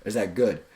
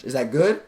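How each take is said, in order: First: Lower, GOOD dropping at the end; no upward lift. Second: GOOD rises into a question; seeking rapport. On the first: Coach showing the difference in tonality, falling end on GOOD. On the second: Coach showing the difference in tonality, rising end on GOOD. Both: Shown as a demonstration. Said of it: "There's a difference".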